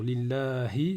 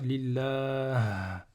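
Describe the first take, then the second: First: The word ends with a final vowel. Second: The word ends on a bare consonant. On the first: "Si je veux m'arrêter sur" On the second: "je vais dire"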